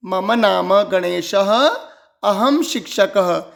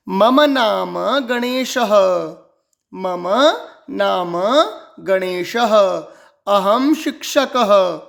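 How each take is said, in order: First: मम नाम गणेशः at a slow even pace; now say it whole, slowly; slow joined recitation. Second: मम, नाम, गणेशः spaced with pauses, गणेशः ending in ह; word by word. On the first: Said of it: "स्पष्ट उच्चारण". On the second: Teacher breaking the sentence into words for pupils. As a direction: separate each word with a pause. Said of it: "स्पष्ट उच्चारण करना सीखना है". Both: Shown as a demonstration.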